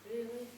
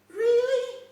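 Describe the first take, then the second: First: It sounds reluctant and dismayed. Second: It sounds happy and excited.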